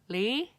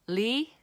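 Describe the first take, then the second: First: The consonant is a clear lateral L sound. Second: The consonant is a clear lateral L sound.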